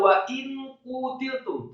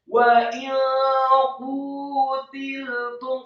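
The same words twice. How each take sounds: First: The n is pronounced clearly before q. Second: The n is hidden in a nasal hum. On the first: The speaker calls it wrong. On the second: The speaker calls it right. "samar-samar, yang benar"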